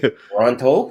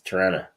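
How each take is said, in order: First: Both T sounds are clearly pronounced. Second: The second T sound is dropped. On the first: The speaker is not a local. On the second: The speaker is a local.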